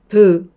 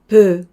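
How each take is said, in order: Both takes have the same delivery.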